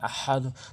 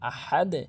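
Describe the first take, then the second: First: The word ends with a 'u' vowel. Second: The word ends with an 'e' vowel. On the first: The speaker calls it wrong. "অনেকে ভুল করে বলে থাকে আহাদু" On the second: The speaker calls it right. "ওয়াকফ করলে আহাদে"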